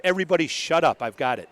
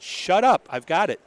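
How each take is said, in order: First: Said in the usual way. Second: Higher, louder mock yell of shut up; retold shout. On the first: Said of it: "and she said". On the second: Police officer to the table, still talking, half-shouting at them to stop. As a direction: snap at the chatter to cut it off. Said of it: "And they kept talking, and she said".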